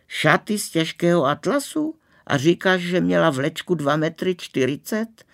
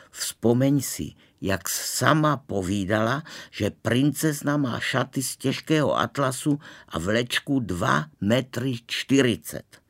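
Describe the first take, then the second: First: High-pitched, marvelling echo; amazed. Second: Measured, mildly urgent reminding; insistent. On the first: Girl hearing about the bride's train, amazed. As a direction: repeat the details in thrilled disbelief. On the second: Boy urging a girl to remember, mildly insistent. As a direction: spell out the details to jog her memory. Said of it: "pravil jsem důtklivým hlasem". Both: A narrator's reading.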